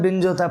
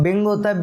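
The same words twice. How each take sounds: First: Binge said as "binj", ending in a j sound like "binge-watch"; Binge, ending like English "hinge"; Binge with soft j. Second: Bing said as "bing", ending in a plain ng sound with no j; Bing rhymed with "ring", nasal ng at the end; Bing, ng ending like English "sing"; Bing with hard g. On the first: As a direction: Binge with n then a clear j at the end, as in "hinge". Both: Shown as a demonstration. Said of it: "Bing होता है कि Binge होता है".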